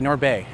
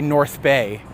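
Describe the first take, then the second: First: The 'th' sound is dropped, sounding like 'Nord'. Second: The 'th' sound at the end of 'North' is pronounced. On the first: The speaker calls it right. "You say North Bay. So it's like N O R D Bay" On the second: The speaker calls it wrong. "You don't say North Bay"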